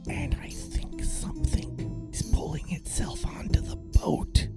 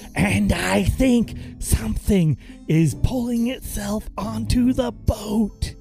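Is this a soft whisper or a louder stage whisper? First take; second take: soft whisper; stage whisper. First: It is said in a soft, quiet whisper. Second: It is said in a louder, projected stage whisper. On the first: "Mickey will then whisper" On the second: "Please use like a stage whisper"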